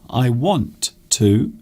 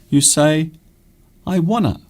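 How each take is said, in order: First: Both words are said fully and separately. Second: The two words blend into one short form. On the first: "instead of saying want to"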